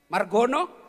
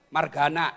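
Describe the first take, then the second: First: The name is said with a Javanese pronunciation. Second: The name is said with a Sundanese pronunciation. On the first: The person is Javanese. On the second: The person is Sundanese. "ay Sunda"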